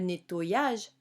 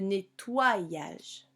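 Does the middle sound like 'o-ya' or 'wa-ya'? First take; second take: o-ya; wa-ya. First: The middle is said as a plain o-ya. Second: The middle is said as wa then ya. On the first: The speaker calls it wrong. "tu n'as pas le nettoyage" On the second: The speaker calls it right. "tu as le nettoyage"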